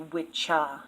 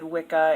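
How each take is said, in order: First: The middle consonant is a ch sound. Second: The middle consonant is a hard k sound. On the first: The speaker calls it right. "it's actually witcha" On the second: The speaker calls it wrong. "I actually mispronounced them"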